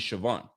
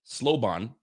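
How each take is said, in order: First: The name begins with an 'sh' sound. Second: The name begins with an 'sl' sound. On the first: The speaker calls it right. "but it's really Siobhan" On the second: The speaker calls it wrong. "I see an L in there. Slowbon"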